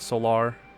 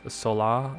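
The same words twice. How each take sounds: First: The final R sound is pronounced. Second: The final R sound is dropped. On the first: The speaker calls it wrong. "I was saying it wrong. It's not Solar" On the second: The speaker calls it right. "R is apparently not really a thing in how you say that"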